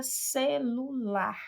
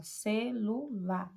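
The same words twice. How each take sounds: First: Said in the usual way. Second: "Celular" slowly in three beats, ce-lu-lar; slow, divided "Celular", one pulse per syllable. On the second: Shown as a demonstration. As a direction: separate each syllable of "Celular" for learners. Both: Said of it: "três emissões de voz".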